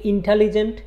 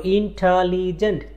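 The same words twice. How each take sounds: First: Said in the usual way. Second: ইন্টেলিজেন্ট split into four syllables; teacher counting out the syllables of ইন্টেলিজেন্ট. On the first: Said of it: "আবার আমি যদি বলি ইন্টেলিজেন্ট". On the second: Shown as a demonstration. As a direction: sound out ইন্টেলিজেন্ট in four separate beats, in-te-li-gent. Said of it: "চারটা syllable আছে".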